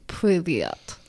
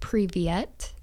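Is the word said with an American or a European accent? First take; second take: European; American. First: The word is said with a European accent. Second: The word is said with an American accent. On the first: "more of like a kind of like a European accent" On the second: "if you want to say it with a just more kind of close to like American accent"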